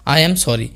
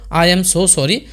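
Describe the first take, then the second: First: Said in the usual way. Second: "so" pressed to intensify "sorry"; "so" given extra weight before "sorry"; stress on so. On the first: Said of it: "আমরা simply বলতে পারতাম". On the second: Shown as a demonstration. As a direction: lean on "so" in "I am so sorry". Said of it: "সরির উপরে জোর দেওয়ার জন্য".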